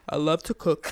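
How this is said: It is said in a put-on male voice.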